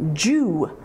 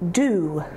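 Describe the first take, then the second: First: The syllable begins with a J sound. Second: The syllable begins with a D sound. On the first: The speaker calls it right. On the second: The speaker calls it wrong. "and not do"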